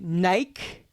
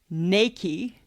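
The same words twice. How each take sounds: First: The name ends like the word 'bike'. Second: The name ends with a 'key' sound. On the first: The speaker calls it wrong. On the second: The speaker calls it right.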